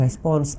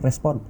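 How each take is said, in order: First: The word ends with a final s sound. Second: The word ends without a final s sound. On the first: The speaker calls it right. "respons S-nya harus ikut" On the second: The speaker calls it wrong. "Kita kan kadang cuma respon"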